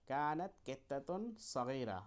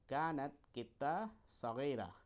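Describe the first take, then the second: First: The cat word is said with the -tun ending. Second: The cat word ends without the -tun ending.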